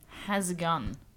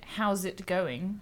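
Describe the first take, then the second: First: The words blur together, sounding like has a gun. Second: Each word is pronounced fully and separately. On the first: "you pronounce it more like has a gun" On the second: "instead of pronouncing it"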